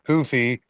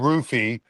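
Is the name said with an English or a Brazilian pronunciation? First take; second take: Brazilian; English. First: The name starts with a Brazilian H-like sound. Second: The name starts with an English R sound. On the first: "I just like saying it Brazilian way" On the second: "It's probably Rufy"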